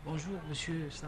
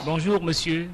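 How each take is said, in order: First: Barely audible greeting; too quiet. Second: Louder greeting; speaking up. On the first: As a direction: say it far too softly. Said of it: "On ne vous entend pas". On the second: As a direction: speak up for the mic. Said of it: "Parlez plus fort". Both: Real, not acted.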